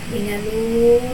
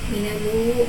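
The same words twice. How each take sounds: First: The long vowel is held for six counts. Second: The long vowel is held for four counts.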